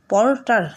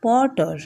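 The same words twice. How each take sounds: First: পর্টার with both Rs fully sounded; hard R. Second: পর্টার with the Rs barely sounded; silent R. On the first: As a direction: roll out each R in পর্টার. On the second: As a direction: let the R drop out of পর্টার. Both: Shown as a demonstration. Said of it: "এইভাবে নয়".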